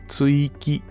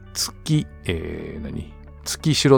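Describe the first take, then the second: First: It is pronounced Tsuiki. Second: It is pronounced Tsukishiro. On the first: This is the actual reading of the name. The speaker calls it right. "これは築城基地と読むらしいですね" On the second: This is the misreading given earlier. The speaker calls it wrong. "月城って私が読んだんじゃないかなと思うんですけど"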